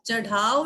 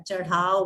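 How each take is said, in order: First: "चढ़ाव" with hard "dh"; stopped D in "चढ़ाव"; wrong consonant. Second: "चढ़ाव" lower, with flapped "rh"; "char-haav", flap instead of D in "चढ़ाव"; correct consonant. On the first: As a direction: say "चढ़ाव" as "chad-haav". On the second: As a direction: flick the tongue in "चढ़ाव". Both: Shown as a demonstration. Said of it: "चढ़ाव नहीं होता है".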